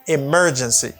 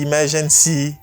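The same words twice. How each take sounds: First: The stress is on the second syllable. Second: The stress is not on the second syllable. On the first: The speaker calls it right. "Stresses on the second syllable, you say mer" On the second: The speaker calls it wrong. "Moun kon ap di emergency"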